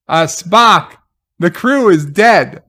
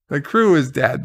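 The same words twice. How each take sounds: First: Louder, blunt, deadpan correction; exasperated reply. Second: Said in the usual way. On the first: Retold or imitated. Answering Spock's speech with a louder, exasperated correction. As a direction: tell him the obvious, exasperated. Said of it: "retelling reply to Spock". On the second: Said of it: "repeating the line".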